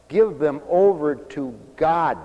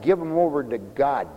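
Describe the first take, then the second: First: "Give" stressed, slow and deliberate; slow emphatic repeat. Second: Said in the usual way. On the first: Shown as a demonstration. Preacher repeating his advice to the counseling wife, slower. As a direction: spell it out word by word.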